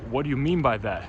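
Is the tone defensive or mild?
defensive. It is said strongly, with a defensive, offended edge. The speaker is offended and will not accept disrespect. The speaker calls it right. "really turn up that defensiveness"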